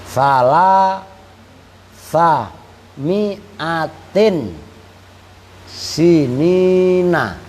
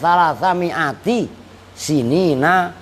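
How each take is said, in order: First: The word before sinina ends in an n sound. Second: The word before sinina ends without an n sound. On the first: The years are an apposition to three hundred. "Kalau mi'atinnya ditanwini" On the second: Each word is possessed by the next word. "Kalau enggak kamu tanwini kan berarti dibacanya kan"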